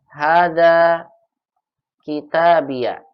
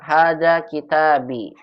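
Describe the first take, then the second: First: The last word ends in an added -ya. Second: The last word ends in a bare i. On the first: "Atau boleh umahat patahkan" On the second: "Boleh umahat sukunkan seperti ini"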